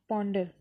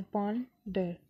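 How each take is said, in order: First: Said in the usual way. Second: "ponder" split as pawn… डर; two separate beats, पॉन then डर; syllable by syllable. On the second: Shown as a demonstration. (Ponder को दो syllable में तोड़कर) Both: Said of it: "दो syllables हैं".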